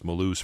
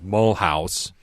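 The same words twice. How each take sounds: First: The name is pronounced the French way. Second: The name is pronounced as English spelling suggests. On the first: The speaker calls it right. "the city we stayed at, which is Mulhouse" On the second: The speaker calls it wrong. "which is spelled Mulhouse, but don't pronounce it that way"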